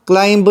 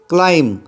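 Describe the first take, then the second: First: "क्लाइंब" with an audible b after the m; b pronounced. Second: "क्लाइम" ending on m, b left silent. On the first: Teacher warns learners off a misreading, "क्लाइंब" with b voiced. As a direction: sound out the final b in "क्लाइंब". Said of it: "नहीं पढ़ेंगे". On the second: Teacher shows learners the English word, "क्लाइम" with silent b. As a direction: say "क्लाइम" with no b sound after the m. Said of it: "यहाँ पे मैंने पढ़ा इस word को". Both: Shown as a demonstration.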